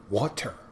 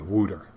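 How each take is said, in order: First: It is said with a clear T sound. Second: It is said with a Philadelphia accent. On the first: "You got to pronounce the T" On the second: "That's Philadelphia, wooter"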